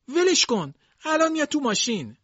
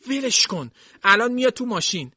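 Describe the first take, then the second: First: Very high, strained plea; old servant begging again, strained and high; old maid pleading harder. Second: Much higher, louder pleading voice; old servant begging Jason to let go, high; old maid pleading. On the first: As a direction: push the plea even higher. Dilsey repeats her plea. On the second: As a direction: beg him to let her go. Dilsey pleading, separating them. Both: Acted.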